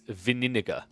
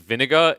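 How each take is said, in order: First: The word is said with extra sounds added. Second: The word is said with its usual sounds. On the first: The speaker calls it wrong. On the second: The speaker calls it right.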